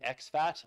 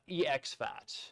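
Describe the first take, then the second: First: The first part is said as one syllable. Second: The first part is spelled out as two letters. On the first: "a lot of people I'm hearing are saying" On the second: "I'm going to keep calling it E X FAT"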